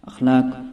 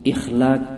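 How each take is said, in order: First: The word begins with an 'a' vowel. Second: The word begins with an 'i' vowel. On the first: It means good qualities or traits. The speaker calls it right. "खुल्क की जमा है" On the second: It means making or becoming old. The speaker calls it wrong. "अलिफ के ज़ेर के साथ, तो ये गलत तलफ़ुज़ है"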